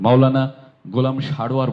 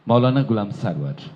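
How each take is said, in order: First: The name begins with a soft 'sh' sound. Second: The name begins with a crisp 's' sound. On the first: The speaker calls it wrong. "বলার সুযোগ নেই" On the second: The speaker calls it right. "সারোয়ার বিদেশি শব্দ"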